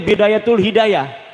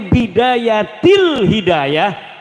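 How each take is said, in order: First: The first word ends with a 'u' vowel. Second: The first word ends with an 'i' vowel. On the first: The speaker calls it wrong. "Nyeluke Bidayatul Hidayah" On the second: The speaker calls it right. "Harus sebah dibacanya Bidayatil Hidayah karena anak huruf jerbe"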